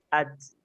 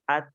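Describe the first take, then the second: First: The syllable ends with an added s sound. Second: The syllable ends without any added s sound. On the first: The speaker calls it wrong. "tambahan dan juga gabungan daripada adanya huruf sin" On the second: The speaker calls it right. "yang tepat itu adalah seperti ini"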